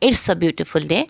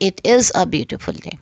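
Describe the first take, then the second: First: It is shortened into one syllable, "it's". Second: It is said as two words, "it is". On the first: "तो ये इट्स pronounce होगा" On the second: "जब uncontracted form होगी"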